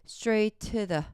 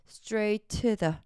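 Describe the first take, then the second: The two takes are said the same way.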